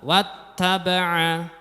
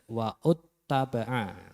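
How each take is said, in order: First: Wa runs straight into a doubled t. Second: An extra vowel is sounded before the t. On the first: The speaker calls it right. "Dibaca wat taba'a" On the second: The speaker calls it wrong. "tidak wa'ud taba'a"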